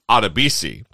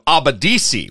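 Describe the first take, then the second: First: The name is said as Adebisi. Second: The name is said as Abadisi. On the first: The speaker calls it right. "I say his name correctly" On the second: The speaker calls it wrong. "which is kind of your norm"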